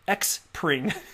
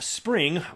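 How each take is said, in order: First: The name begins with an ex sound. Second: The name begins with a plain s sound. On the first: The speaker calls it wrong. "incorrectly enunciated by everybody ever that has read it" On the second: The speaker calls it right. "Previously called"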